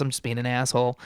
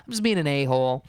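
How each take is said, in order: First: Said in the usual way. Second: Self-censored. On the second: Shown as a demonstration.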